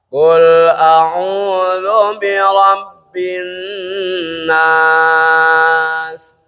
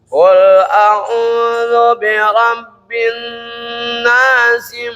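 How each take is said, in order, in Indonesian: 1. Frasa berhenti di 'nas' tanpa vokal akhir. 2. Frasa berakhir 'nasi' dengan vokal akhir dibaca. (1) "itu kalau satu-satu" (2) "Kalau disambung"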